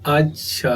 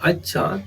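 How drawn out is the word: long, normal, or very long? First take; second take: long; normal. First: The word is said lengthened, drawn out. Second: The word is said short, at normal length. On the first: It expresses opposition. "दीर्घ कहा" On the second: It expresses acceptance. "सामान्य रूप में कहा"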